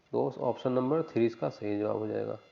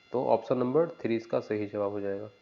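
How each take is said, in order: The two takes are said the same way.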